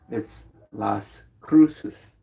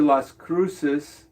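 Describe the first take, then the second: First: Las Cruces drawn out very slowly, Spanish style, rising on Cruces; Spanish pronunciation. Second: Said in the usual way. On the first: Shown as a demonstration. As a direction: savour Las Cruces like a native speaker. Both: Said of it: "Notice I put that accent on there".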